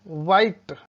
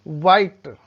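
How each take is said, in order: Both takes have the same delivery.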